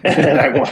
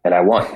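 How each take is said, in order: First: Breaking into laughter mid-line; can't say it without cracking up; laughing. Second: Said in the usual way. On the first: Real, not acted. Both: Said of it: "I can't say it without laughing".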